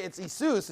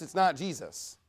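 First: Jesus said ee-SOOS, higher; Jesus with an ee start and long oo; Greek pronunciation. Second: Said in the usual way. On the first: Shown as a demonstration. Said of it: "In fact, in Greek". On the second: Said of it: "And in English".

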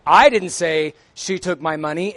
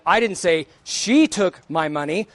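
First: "I" stressed, pitch rising on it; emphatic "I" at the start. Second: "she" stressed, pitch rising on it; emphatic "she" in the middle. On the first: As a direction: lean hard on the word "I" in "I didn't say she took my money". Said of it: "emphatic stress". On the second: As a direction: lean hard on the word "she" in "I didn't say she took my money". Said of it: "is a different meaning than". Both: Shown as a demonstration.

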